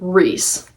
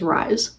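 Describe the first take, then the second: First: The vowel sounds like 'ee'. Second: The vowel sounds like 'eye'. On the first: "Reese is his name" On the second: "I was pronouncing his name in my head as Rise"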